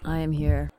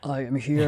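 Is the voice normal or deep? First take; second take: normal; deep. First: It is said in her normal voice. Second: It is said in a deeper voice.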